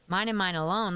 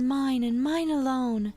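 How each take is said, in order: First: The character voice is pitched somewhat lower. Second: The character voice is pitched too high.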